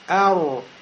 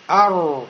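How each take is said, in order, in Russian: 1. Округлённые губы придают р окончание, похожее на у. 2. Округлённые губы придают р окончание, похожее на у.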